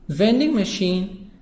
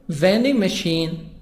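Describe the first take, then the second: Both takes have the same delivery.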